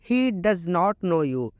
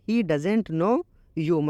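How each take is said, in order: First: The words 'does not' are said in full. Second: The words 'does not' are contracted to 'doesn't'.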